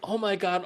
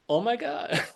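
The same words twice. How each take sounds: First: It sounds worried and overwhelmed. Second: It sounds amazed and delighted. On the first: The day was bad and tomorrow is a burden. The speaker calls it wrong. "Instead of going" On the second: The day was wonderful and exciting. The speaker calls it right. "same words, different spirit"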